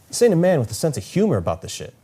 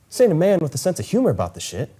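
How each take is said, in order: Both takes have the same delivery.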